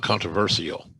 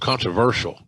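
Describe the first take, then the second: First: The ending does not sound like 'shul'. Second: The ending sounds like 'shul', as in Herschel. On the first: The speaker calls it wrong. "not controversial" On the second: The speaker calls it right. "So controversial"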